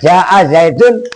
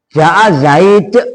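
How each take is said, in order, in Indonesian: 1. Kata terakhir berakhir dengan -un yang terdengar jelas. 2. Kata terakhir berakhir pada konsonan mati. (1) "Domah dohiro" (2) "pakai sukun"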